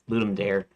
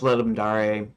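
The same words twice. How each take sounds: First: It is pronounced as the English spelling looks. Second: It is pronounced in the Latin way. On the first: "it's just the way it looks to me" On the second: "like proper Latin pronunciation"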